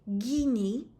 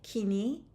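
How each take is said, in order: First: The word begins with a voiced g sound. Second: The word begins with a voiceless k sound. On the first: This is the Eastern Armenian form. "In Eastern Armenian we say gini" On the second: This is the Western Armenian form. "we say kini in Western Armenian"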